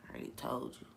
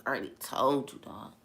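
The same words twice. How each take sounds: First: Soft, unhurried answer; calm humble reply. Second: Soft, casual, untroubled; calm humble reply. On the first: Jesus answering his accusers, calm and soft. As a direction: quietly say it like it's settled. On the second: Jesus answering them again, softly and calmly. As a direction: say it gently, nothing to prove. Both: Retold or imitated.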